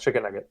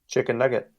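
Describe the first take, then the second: First: It is said very fast, run together. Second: It is said at a normal speed.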